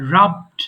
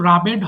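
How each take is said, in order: First: The ending is a bare d, one syllable. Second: The ending adds an extra vowel, two syllables. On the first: The speaker calls it right. "রাব, রাবড, রাবড" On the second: The speaker calls it wrong. "এটা কিন্তু রাবেড হবে না"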